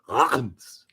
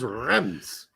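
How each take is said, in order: First: The first sound is a guttural throat R. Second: The first sound is a plain English R. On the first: The speaker calls it right. "now it turns out it's Rems, like that" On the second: The speaker calls it wrong. "I always thought it was Rems"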